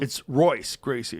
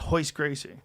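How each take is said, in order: First: The first name begins with an English R sound. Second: The first name begins with an H-like sound. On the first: This is the English way to say the name. "in English" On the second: This is the Portuguese way to say the name. "they pronounce the R and H"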